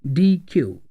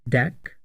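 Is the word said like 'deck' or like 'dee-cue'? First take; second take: dee-cue; deck. First: It is said as two syllables, like 'dee-cue'. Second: It is said as one syllable, like 'deck'. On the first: "or D Q" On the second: "pronounced as D E C"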